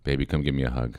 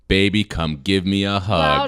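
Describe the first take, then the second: First: It is said at a quiet volume. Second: It is said loudly.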